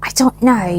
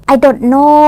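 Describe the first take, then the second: First: "I don't know" in a put-on accent; one English accent. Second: "I don't know" louder, in a different accent; another English accent. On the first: (ลองพูด I don't know แบบติดสำเนียง) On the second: (พูด I don't know เสียงดัง ติดสำเนียง) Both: Shown as a demonstration. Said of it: "พูดภาษาอังกฤษด้วยสำเนียงไหนก็ได้".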